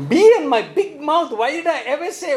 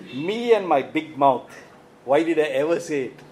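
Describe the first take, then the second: First: Exasperated mock regret. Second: Mock regret. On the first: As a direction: cry out in hammed-up self-reproach. Repeats the regret, more exasperated. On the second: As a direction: act out rueful second thoughts, dragging the opening. Voicing someone's regret after speaking.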